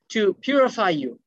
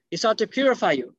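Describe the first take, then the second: First: "purify" drawn out slowly, falling at the end; slow stress on purify. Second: Said in the usual way. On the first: Shown as a demonstration. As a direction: lean slowly on "purify" to teach it.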